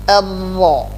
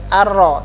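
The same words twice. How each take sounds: First: The r sound is thick and heavy. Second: The r sound is thin and light. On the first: The speaker calls it right. "tetapi ar-ra. Tebal" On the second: The speaker calls it wrong. "bukan ar-ra"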